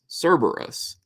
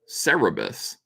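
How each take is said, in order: First: The name is said as 'SER-ber-us'. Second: The name is said as 'SEH-reh-bus'. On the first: "people are saying it's pronounced Cerberus" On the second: "We always pronounced it Cerebus"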